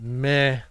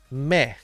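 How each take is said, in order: First: The word ends in an 'eh' vowel. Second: The word ends in an 'ee' vowel. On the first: The speaker calls it wrong. "Not meh" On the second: The speaker calls it right. "we use the word me"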